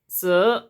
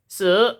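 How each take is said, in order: First: The syllable is said in the second tone. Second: The syllable is said in the second tone.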